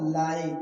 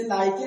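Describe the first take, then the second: First: लाइक in one syllable, "like"; silent final e. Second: लाइके in two syllables, "lie-kay"; wrong final e sounded. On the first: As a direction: end लाइक on the k. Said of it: "क्या बोलना?". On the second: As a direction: misread लाइके with an e voiced at the end. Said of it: "इसे लाइके नहीं बोलना है". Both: Shown as a demonstration.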